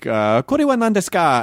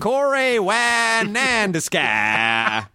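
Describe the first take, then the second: First: It is said in a fluent Japanese-sounding accent. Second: It is said in a broad Texan accent. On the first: "when you get start getting cocky" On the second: "I didn't mean Texan accent"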